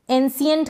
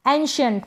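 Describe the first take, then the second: First: "एंशिएंट" misread with S, en-si-yent; wrong S sound. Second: Said in the usual way. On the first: Shown as a demonstration. Teacher warning against a misreading, "एंशिएंट" as en-si-yent. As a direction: put S for SH in "एंशिएंट". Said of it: "स पढ़ दें नहीं". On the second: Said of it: "श पढ़ेंगे".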